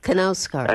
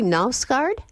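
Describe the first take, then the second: First: The initial K sound is pronounced. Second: The initial K sound is silent. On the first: The speaker calls it right. "you actually pronounce the K" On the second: The speaker calls it wrong. "Do I pronounce his name correctly?"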